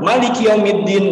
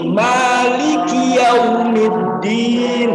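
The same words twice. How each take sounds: First: The first vowel is cut too short. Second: The first vowel is held two beats. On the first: The speaker calls it wrong. "Bukan juga langsung" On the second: The speaker calls it right. "dua harokat saja"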